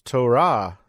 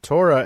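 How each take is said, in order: First: The stress is on the last syllable. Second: The stress is on the first syllable.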